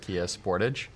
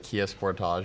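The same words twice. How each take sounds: First: Sportage is said the American way. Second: Sportage is said the usual non-American way.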